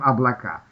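The unstressed o sounds like a. "«о», когда безударное, говорится как «а»"

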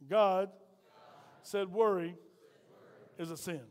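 It is said in a deep voice.

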